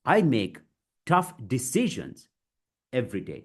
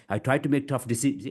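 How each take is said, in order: First: Chunked delivery. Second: Fast run-on, stumbling off before the end; rushed. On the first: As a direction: break it into deliberate chunks. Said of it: "Break it, guys". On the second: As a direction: hurry through with no chunks. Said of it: "If I try to rush". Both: Shown as a demonstration.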